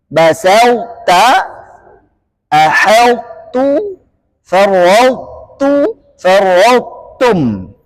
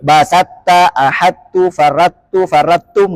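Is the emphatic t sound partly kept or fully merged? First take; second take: partly kept; fully merged. First: Some emphatic quality remains before the t. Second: The emphatic sound fully merges into the t. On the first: The speaker calls it right. "harus dibaca idgham naqis" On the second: The speaker calls it wrong. "tanpa idgham naqis"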